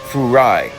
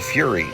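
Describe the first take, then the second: First: The name ends with a 'rye' sound. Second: The name ends with a 'ree' sound. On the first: The speaker calls it right. "it's more properly pronounced Furai" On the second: The speaker calls it wrong. "I called it a Mazda Fury"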